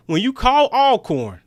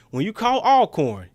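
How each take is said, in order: Both takes have the same delivery.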